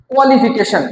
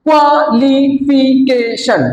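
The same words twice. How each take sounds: First: Said in the usual way. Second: কোয়ালিফিকেশন slowly as QUA, LI, FI, CA, TION; five even beats on কোয়ালিফিকেশন; broken into syllables. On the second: Shown as a demonstration. Teacher shows five syllables to class, কোয়ালিফিকেশন split slowly. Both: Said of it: "পাঁচবার উচ্চারিত হয়েছে".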